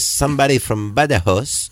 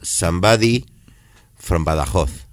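First: The phrase is said in an English accent. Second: The phrase is said in an Extremaduran Spanish accent. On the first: "en inglés" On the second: "y en extremeño"

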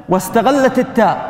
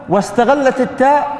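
No difference in how they are said.

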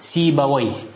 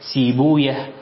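First: The name ends in an 'awayh' sound. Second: The name ends in a long 'ooyah' sound. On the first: It follows the Arabic interjection wayh. "أما أهل اللغة فيقولون" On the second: It follows how native Persian speakers said it. "فأهل الحديث يقرؤونها كما ذكرتها لكم"

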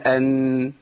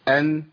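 First: The nasal sound is drawn out longer. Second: The nasal sound is held only briefly. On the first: The speaker calls it wrong. "بنزودها شويه" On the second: The speaker calls it right. "الله يكفيها كده"

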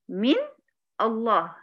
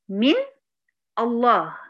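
The two takes are said the same way.

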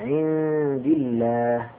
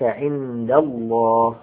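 First: The L in Allah sounds light and thin. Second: The L in Allah sounds heavy and full. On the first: "فيرقق ولا يكون مفخما" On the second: "اللام هنا تفخم"

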